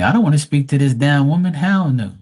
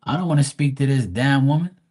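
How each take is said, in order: First: Louder, higher, quicker retold refusal; emphatic refusal. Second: Slightly raised, measured voice for a grandma's refusal; refusing grandma. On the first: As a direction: blurt it out loudly as the indignant spirit. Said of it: "Spirit's gonna tell me". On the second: Retold or imitated. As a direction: lightly voice an indignant grandma turning someone down. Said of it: "the grandma comes and says".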